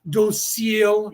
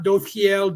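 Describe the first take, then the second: First: The middle consonant is an S sound. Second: The middle consonant is a TH sound. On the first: The speaker calls it right. "docile, not dothiel" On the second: The speaker calls it wrong. "not dothiel"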